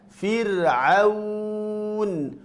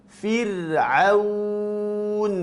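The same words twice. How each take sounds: Both takes have the same delivery.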